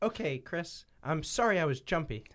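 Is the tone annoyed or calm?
calm. It is said in a calm, plain tone.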